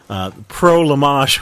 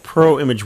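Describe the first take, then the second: First: The name is said with a fancy, foreign-sounding twist. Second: The name is said plainly, as ordinary English words. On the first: "I've been using the John pronunciation" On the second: "it's called Pro Image 100"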